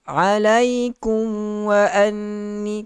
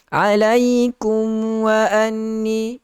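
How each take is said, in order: First: The m blends into the following w. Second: The same.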